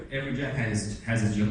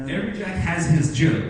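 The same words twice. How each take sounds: First: Said in the usual way. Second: Slow emphatic proverb. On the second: Shown as a demonstration. Teacher quotes English proverb.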